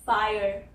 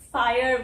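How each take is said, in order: First: फायर said with the eye sound, fai-ur; फायर with a clear long eye vowel; correct version. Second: फायर said with a flat aa, the wrong way; फायर with plain aa vowel; wrong version. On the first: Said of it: "आई आ रहा है". (सही उच्चारण वाला फायर) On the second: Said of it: "फायर नहीं". (गलत उच्चारण वाला फायर) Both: Shown as a demonstration.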